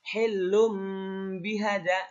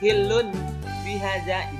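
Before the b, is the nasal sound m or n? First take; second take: m; n. First: The nasal before b changes to an m sound. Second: The nasal before b is a clear n sound. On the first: The speaker calls it right. "Tapi hilum bihada" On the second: The speaker calls it wrong. "Jangan dibaca hilun bihada, itu salah"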